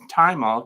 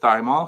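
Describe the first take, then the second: First: The word begins with a 't' sound. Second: The word begins with a 'th' sound. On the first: The speaker calls it right. "It's thymol because it comes from the thyme plant" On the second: The speaker calls it wrong. "I said thymol because that's the way it's spelled"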